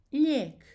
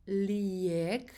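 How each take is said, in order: First: "lijek" as a single syllable, lyehk, loud and high; one-syllable lijek. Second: "lijek" drawn out as li-YEK, with a separate i; two-syllable lijek. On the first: Teacher correcting the pronunciation, "lijek" as one syllable, lyehk. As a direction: skip the i in "lijek" and lengthen the e: lyehk. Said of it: "Skipping Croatian E and making A a bit longer". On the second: Teacher showing the mistake to avoid, "lijek" as two syllables, li-yek. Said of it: "So it's not lijek". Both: Shown as a demonstration.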